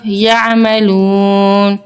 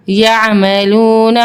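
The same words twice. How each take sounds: First: یعملون slowed, long و held before final ن; stretched stop. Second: Said in the usual way. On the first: Shown as a demonstration. Teacher to children, slow madd stop on یعملون. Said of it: "آگے وقف". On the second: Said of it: "نون زبر نا".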